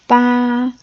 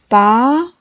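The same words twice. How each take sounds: First: It is said with a high level pitch. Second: It is said with a rising pitch. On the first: "That's the first"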